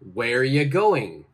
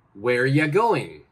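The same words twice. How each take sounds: First: 'Are you' is joined into one short sound. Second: The same.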